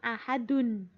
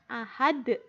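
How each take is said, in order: First: The word ends with the final 'un' sound. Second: The word ends without the final 'un' sound. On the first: The speaker calls it wrong. "bukan ahadun" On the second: The speaker calls it right. "dibacanya ahad"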